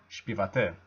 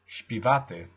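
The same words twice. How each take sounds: First: The stress is on a different syllable. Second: The stress is on the second-to-last syllable. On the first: The speaker calls it wrong. "not śpiewaty" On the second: The speaker calls it right. "the stress is always on the penultimate syllable"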